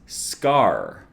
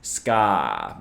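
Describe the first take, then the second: First: The word ends with a clear r sound. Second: The r is dropped, in a British accent. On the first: "the pronunciation written out here is Scar" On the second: "if you are a Disney villain, then you might pronounce it as Ska, because of course Disney villains always have British accents"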